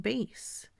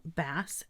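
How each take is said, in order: First: "bass" with long a, as in guitar; bass said like "base". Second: "bass" with short a, like the fish; bass rhyming with "mass". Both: Shown as a demonstration. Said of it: "different meanings and different pronunciations".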